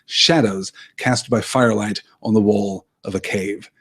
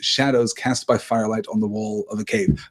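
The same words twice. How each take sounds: First: The phrase is said with strong, dramatic emphasis. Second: The phrase is said plainly, without extra emphasis.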